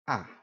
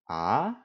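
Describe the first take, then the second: First: The pitch falls sharply from high. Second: The pitch rises from mid to high. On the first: "fourth tone, which is a sharp falling tone" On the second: "Second tone, which is a mid to high rising"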